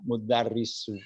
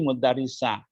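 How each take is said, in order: First: The word ends in a u vowel. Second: The word ends in an a vowel. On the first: The speaker calls it right. "maka itu dhamma ya" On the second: The speaker calls it wrong. "Jangan dibaca"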